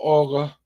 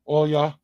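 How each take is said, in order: First: The middle sound is a hard G. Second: The middle sound is a Y. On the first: "it should be Olga in English" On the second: "Olya is how you pronounce your name"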